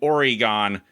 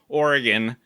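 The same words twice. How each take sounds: First: The name is said the way outsiders say it. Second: The name is said the standard local way. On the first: People from elsewhere say it this way. "Oregon by outsiders" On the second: This is how the dictionary gives it first. "in the dictionary it says Oregon"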